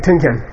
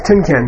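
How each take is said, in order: First: Tunken said plainly as a model for the class to echo; teacher prompts students to say Tunken, crisp model; model for repeating. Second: Tunken said slowly and carefully, syllable by syllable; teacher introduces Tunken slowly so students can repeat it; careful Tibetan term. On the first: Tunken said plainly as a model. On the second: Tunken pronounced slowly, clearly. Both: Shown as a demonstration. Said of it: "Say Tunken".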